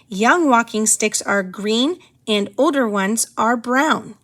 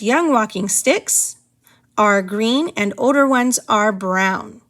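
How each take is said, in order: First: It flows without a pause after the subject. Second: It pauses after the words young walking sticks. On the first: The speaker calls it right. "Hopefully you picked the top one" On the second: The speaker calls it wrong. "It sounds very awkward when we pause after young walking sticks"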